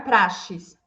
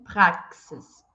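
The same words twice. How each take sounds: First: The x is not said as ks. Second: The x is said as ks. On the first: The speaker calls it wrong. "Não é praxis" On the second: The speaker calls it right. "O X com esse som de K. K S"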